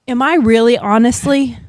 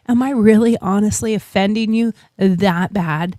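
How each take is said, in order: First: Said in the usual way. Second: Retold calm, measured question. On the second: Shopper asking an offended stranger, calmed down. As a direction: settle down and ask it evenly. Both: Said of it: "and I calmed down".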